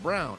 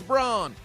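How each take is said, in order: First: The name rhymes with the word town. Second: The name is said as the spelling suggests. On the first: This is how the player's name is officially said. "but somehow they pronounce it Brown" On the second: The speaker refuses the official pronunciation as a joke. "I'ma call yo ass Braun"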